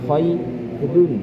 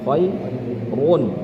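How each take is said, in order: First: The r is pronounced light and thin. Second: The r is pronounced heavy and thick. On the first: "Tapi kalau waras dia jadi tipis"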